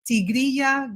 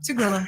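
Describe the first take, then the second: First: It is said with a Spanish accent. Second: It is said with an American accent. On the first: "the name is actually in Spanish" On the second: "the Americans just say"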